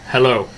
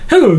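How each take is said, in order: First: It is said in a plain serious voice. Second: It is said in a mocking put-on voice.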